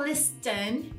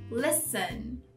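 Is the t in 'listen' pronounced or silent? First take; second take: pronounced; silent. First: The t sound is pronounced. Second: The t sound is silent. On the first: The speaker calls it wrong. "Não é listen" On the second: The speaker calls it right. "O silent T"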